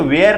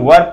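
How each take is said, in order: First: The vowel is long, like in 'where'. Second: The vowel is short, like in 'wur'. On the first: The speaker calls it wrong. "इसे वेयर नहीं" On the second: The speaker calls it right. "वर पढ़ना है"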